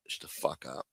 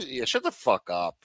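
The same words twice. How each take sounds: First: Breathy whispered brush-off; whispered shut up. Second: Said in the usual way. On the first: Real, not acted. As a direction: drop it to a whisper. Fading dismissal.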